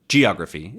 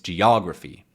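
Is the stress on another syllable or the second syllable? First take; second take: another; second. First: The stress falls on a syllable other than the second. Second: The stress falls on the second syllable only. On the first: The speaker calls it wrong. "It's not geography" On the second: The speaker calls it right. "It's geography"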